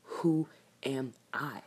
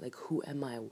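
First: Slow, hushed whisper to herself. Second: Said in the usual way. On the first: Real, not acted. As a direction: breathe the question out slowly. Asks herself who she is.

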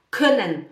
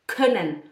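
No difference in how they are said.

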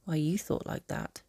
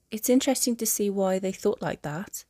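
First: Softer, with stress on "you"; unspoken thought. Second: Lifted start on "interesting"; spoken aloud. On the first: What she didn't say to him, softer, stressing "you". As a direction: drop back to a private thought, leaning on "you". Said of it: "she didn't say". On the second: She comments on his family's views, "interesting" lifted. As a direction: voice it openly, "interesting" pitched up. Spoken line, against her unspoken thought. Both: A narrator's reading.

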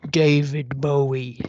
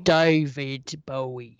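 First: Deep crooner demo. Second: Lower, slow crooned name; low crooner take. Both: Shown as a demonstration. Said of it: "It should be more like".

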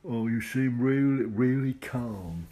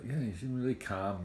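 First: Loud, high, drawn-out mock Cockney; hammed-up amateur Cockney, slow and loud; bad Cockney accent. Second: Said in the usual way. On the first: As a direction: put on a Cockney accent badly, stretching the words. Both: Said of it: "I can't do a Cockney accent".

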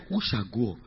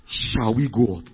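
First: "Who shall go up?" with who leaned on, quieter; stress on who. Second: "Shall we go up?" with we stressed and falling. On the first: Preacher giving the question they really asked, with stress on who. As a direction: lean on who, the right question. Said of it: "They said". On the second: Preacher giving the wrong question, with stress on we. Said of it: "They didn't say". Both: Shown as a demonstration.

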